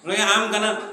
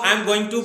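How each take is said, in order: First: Going to is squeezed into gonna. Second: Going to is said in full. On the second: "वो I am गोइंग टू बोलेंगे ही नहीं"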